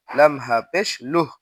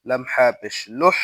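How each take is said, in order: First: লুহ with no rush of air; small ha in লুহ, no air released; small ha, no breath. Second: লুহ ending with air released; big ha in লুহ, with escaping breath; breathy big ha. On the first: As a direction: hold back the breath on the final h of লুহ. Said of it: "বাতাস বের হবে না". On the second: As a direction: let the breath out on the final h of লুহ. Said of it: "বাতাস বের হবে". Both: Shown as a demonstration.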